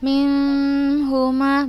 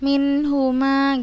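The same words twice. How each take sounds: First: The n sound is muffled and drawn out. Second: The n sound is pronounced clearly and crisply. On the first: The speaker calls it wrong. "bukan seperti itu" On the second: The speaker calls it right. "langsung kita baca jelas"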